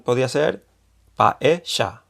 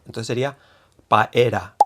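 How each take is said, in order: First: The middle consonant is an Argentine-style sound. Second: The middle consonant is an R sound. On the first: "Si fuese con acento argentino" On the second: "se escribiría como la R, ¿no? Con ra"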